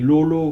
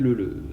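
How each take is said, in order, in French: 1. Les voyelles sonnent comme le 'o' du français. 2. Les voyelles sonnent comme le 'eu' du français. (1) "comme si c'était des O" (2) "si on devait euh, prononcer ça à la danoise"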